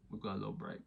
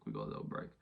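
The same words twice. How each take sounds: First: Said in the usual way. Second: Much lower, quiet rumble on We've got a little break; deep voice. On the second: Pretend. Repeating the news to viewers in a deep low voice. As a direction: drop the voice way down for the repeat.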